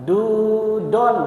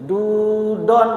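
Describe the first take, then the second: Both takes have the same delivery.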